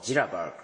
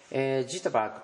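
First: The word is said quickly with a flapped sound. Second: The word is said slowly with a clear t. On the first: "早く発音するとジラバーグ" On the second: "ジットバーグというのは"

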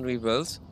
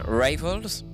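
First: The word is said with a French-style pronunciation. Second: The word is said with an English-style pronunciation. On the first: The speaker calls it wrong. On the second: The speaker calls it right.

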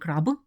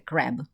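First: It is said with a Ukrainian pronunciation. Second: It is said with an English pronunciation. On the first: The speaker calls it wrong. "це не краб" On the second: The speaker calls it right. "це crab"

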